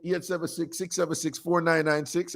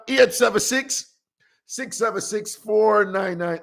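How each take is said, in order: First: Said in the usual way. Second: Slow clear number. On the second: Real, not acted. Host reading the phone number slowly for callers. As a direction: give the digits slowly, one by one. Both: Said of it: "the number is".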